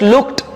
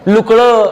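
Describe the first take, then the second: First: The ending is pronounced with a t sound. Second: The ending is pronounced with a d sound. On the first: The speaker calls it right. "हा ट उच्चारायचा" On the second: The speaker calls it wrong. "ड नाही लुकळं आसकळं तसं नाही"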